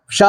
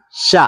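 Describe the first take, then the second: First: "ഷ" with the vowel held long; stretched vowel. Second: Said in the usual way. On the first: Shown as a demonstration. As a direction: draw out the vowel in "ഷ". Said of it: "നീട്ടാൻ എന്ത് കൂടെ വേണം". ("ഷ" നീട്ടി പറയുക) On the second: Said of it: "ഷ നീട്ടാൻ".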